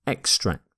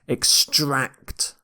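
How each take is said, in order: First: The stress is on the first syllable. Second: The stress is on the second syllable. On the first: It is used as a noun. "if it's a noun, you tend to stress the first syllable" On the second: It is used as a verb. "You stress the second syllable here"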